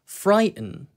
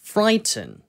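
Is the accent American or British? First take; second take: American; British. First: An American accent with the t swallowed. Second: A British accent with a clear t sound. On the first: "미국식으로 어떻게 발음을 하냐면은 ... 뭔가 먹는 그런 느낌의 소리" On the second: "영국식 발음 같은 경우에는요 ... 명확한 T 소리"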